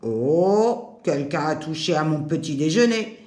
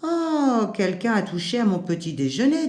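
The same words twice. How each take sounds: First: It is spoken in a deep, low voice. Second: It is spoken in a light, clear voice. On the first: A big, heavy character is speaking. "de sa voix grave" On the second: A gentler character is speaking. "de sa voix claire"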